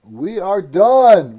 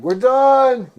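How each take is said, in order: First: Loud, slow sign-off; loud announcing. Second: Loud, high sign-off; loud announcing. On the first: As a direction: call it out slowly. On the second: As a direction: shout the sign-off. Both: Real, not acted. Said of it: "All right".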